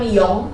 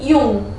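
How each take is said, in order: First: The vowel is pronounced like o. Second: The vowel is pronounced like u. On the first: The speaker calls it wrong. "bukan yong" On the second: The speaker calls it right. "tapi yung"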